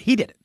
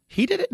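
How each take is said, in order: First: HE DID IT as a quick, falling statement; certain answer. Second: HE DID IT shooting up high into a question; softer, high-pitched rising query on HE DID IT; puzzled echo question. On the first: One character answering the who-did-it question, matter-of-fact statement. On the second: Confused partner echoing the answer back, puzzled question. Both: Acted. Two-role who's-on-first style routine.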